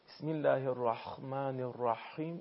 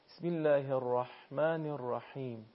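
First: The h sound is rasping like kh. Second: The h sound is light and thin. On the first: The speaker calls it wrong. "حرف ح رو تبدیل به حرف خ بکنه ... این اشتباهه" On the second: The speaker calls it right. "نه"

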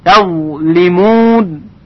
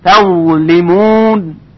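No difference in how they are said.

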